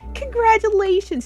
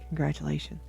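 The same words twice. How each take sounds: First: It is said with excited enthusiasm. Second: It is said in a flat, gloomy way.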